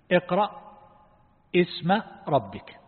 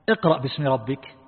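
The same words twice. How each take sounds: First: اقرأ اسم ربك said with the ba dropped, اسم starting bare, slowly; without the ba. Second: Said in the usual way. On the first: Shown as a demonstration. Teacher shows students the verse with the ba dropped, slow demo. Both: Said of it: "لو حذفت الباء".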